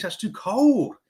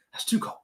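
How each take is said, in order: First: Said in the usual way. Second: Whisper. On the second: Real, not acted.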